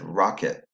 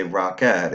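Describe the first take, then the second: First: "rocket" pronounced ROCK-it, weak second vowel; schwa in second syllable. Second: "rocket" pronounced rock-ET, with a clear "eh"; full vowel in second syllable. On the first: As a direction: say "rocket" naturally, ending in a reduced "it". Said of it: "said I". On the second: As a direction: give "rocket" a full short E at the end. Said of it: "So it didn't say rocket". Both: Shown as a demonstration.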